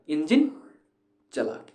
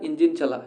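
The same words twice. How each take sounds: First: The word engine is stressed with a pause. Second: It is said plainly without extra stress.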